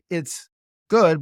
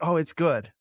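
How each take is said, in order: First: There is a pause within the phrase. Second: It is said with no pause.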